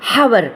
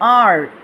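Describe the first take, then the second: First: The word starts with an h sound. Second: The word starts with a vowel sound. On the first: The speaker calls it wrong. "ஹெச் O யூ ஆர் ஹவர் அப்படி சொல்லி தருவாங்க" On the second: The speaker calls it right. "Proper ப்ரொனன்சியேஷனாக"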